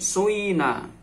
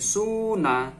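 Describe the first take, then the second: First: The first vowel blends 'oo' into 'ee'. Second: The first vowel is a clear 'oo' sound. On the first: "fa fi'ilnya boleh ismam" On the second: "fa fi'il boleh didomah"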